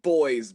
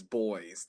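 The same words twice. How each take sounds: First: Put-on "Boys" called out loud and sharp. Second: Said in the usual way. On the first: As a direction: bark "Boys" to stop the goons. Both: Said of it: "and I'm like".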